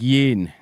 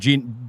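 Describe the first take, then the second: First: The name begins with a soft Y sound. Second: The name begins with a hard J sound. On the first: The speaker calls it right. "But it's more like Yin" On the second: The speaker calls it wrong. "my brain puts a D in the name. So for me, it's more like Jin"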